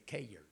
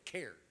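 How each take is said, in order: First: "cared" split into two syllables, "kay-yerd"; Southern two-syllable pronunciation. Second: "cared" as one syllable; local one-syllable pronunciation. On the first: Preacher showing how the South says it, "cared" as two syllables. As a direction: stretch "cared" into "KAY-yurd". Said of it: "two syllables words out of one". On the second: Southern preacher imitating the locals, "cared" said as one syllable. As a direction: say "cared" short, as a single "kaird". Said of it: "y'all out here, y'all say". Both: Shown as a demonstration.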